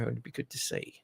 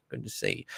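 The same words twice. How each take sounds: First: Said in the usual way. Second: Softly whispered repeat; a breathy aside repeating the wish; whispered echo. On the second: Real, not acted. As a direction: echo it under your breath. Whispered echo of previous line.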